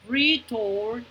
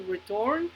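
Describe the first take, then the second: First: "Return" split into two distinct syllables; teacher's careful two-beat "Return". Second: Said in the usual way. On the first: Shown as a demonstration. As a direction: sound out "Return" as re, then turn. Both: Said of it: "escuchen cuántas sílabas".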